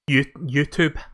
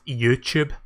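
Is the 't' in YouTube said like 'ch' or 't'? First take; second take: t; ch. First: The second syllable starts with a plain t sound. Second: The second syllable starts with a ch sound. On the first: "I actually taught myself to say YouTube" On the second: "they pronounce the T as a C H"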